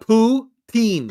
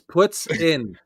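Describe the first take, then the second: First: It is said as poo-teen, with a long ee. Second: It is said like puts-in, with a short i. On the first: The speaker calls it wrong. "It's not poo teen" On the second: The speaker calls it right. "It's puts in"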